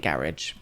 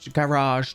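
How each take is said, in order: First: The word is said in an everyday, plain way. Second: The word is said in a posh-sounding way. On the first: "I say garage" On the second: "just for fun. Because it sounds posh"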